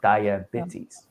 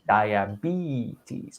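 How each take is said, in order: First: The E sound is not long. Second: The E sound is long. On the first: The speaker calls it wrong. "not diabetes" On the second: The speaker calls it right. "It's a long E"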